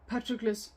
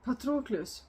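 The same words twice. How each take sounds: First: The name is said with an English pronunciation. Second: The name is said with a non-English pronunciation. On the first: "I'm trying to say a Greek name with an English accent" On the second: "if I was just doing like a Greek name with my own pronunciation"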